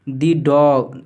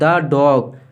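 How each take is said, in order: First: The word 'the' is said with a long 'ee'. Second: The word 'the' is said with a short 'uh'. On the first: The speaker calls it wrong. "Sorry द dog" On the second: The speaker calls it right. "Sorry द dog"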